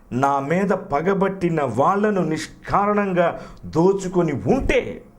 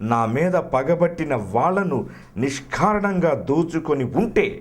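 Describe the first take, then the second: Both takes have the same delivery.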